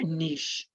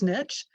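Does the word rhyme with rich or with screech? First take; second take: screech; rich. First: The vowel is long, rhyming with screech. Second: The vowel is short, rhyming with rich. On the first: "it's like screech, but with an N" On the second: "it's like rich with a uh, with the end"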